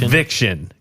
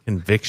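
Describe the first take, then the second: First: The word is said forcefully, with conviction. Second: The word is said plainly, without force.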